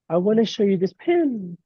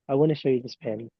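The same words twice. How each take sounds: First: The pitch goes up at the end. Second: The pitch stays level at the end. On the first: The speaker sounds less authoritative. "Upward tonality is" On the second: The speaker sounds fairly authoritative. "Neutral is"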